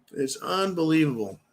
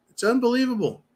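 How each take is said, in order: First: Said in the usual way. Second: High, incredulous exclamation; it's unbelievable, voice leaping up. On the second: Real, not acted. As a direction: pitch shoots up in disbelief.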